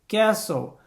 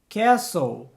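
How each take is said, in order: The two takes are said the same way.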